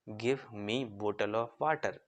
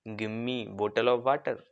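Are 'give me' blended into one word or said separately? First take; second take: separate; blended. First: Give and me are said as two separate words. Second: Give and me blend into one word, gimme. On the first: "तो sentence कैसे बनता" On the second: "थोड़ा stylish में कैसे बोलोगे"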